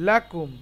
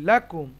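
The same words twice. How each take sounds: No difference in how they are said.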